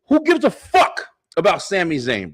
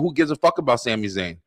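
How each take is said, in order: First: It is said noticeably louder. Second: It is said at a normal volume.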